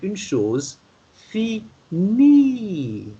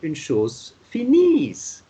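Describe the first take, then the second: First: The last word ends with a vowel sound. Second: The last word ends with an s sound. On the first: The speaker calls it right. "You only say une chose finie with I E at the end to have the E sound instead of the S sound" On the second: The speaker calls it wrong. "you don't say une chose finise"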